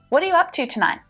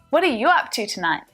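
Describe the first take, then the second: First: The word 'you' is not stressed. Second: The word 'you' is stressed.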